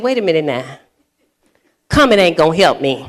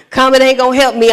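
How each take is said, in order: First: Low, chuckling comeback; laughing retort. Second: Fast repeat of Comment ain't gonna help me; quick louder replay of Comment ain't gonna help me; quick retort. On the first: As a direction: laugh it off while still mad. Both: Retold or imitated. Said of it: "And I said".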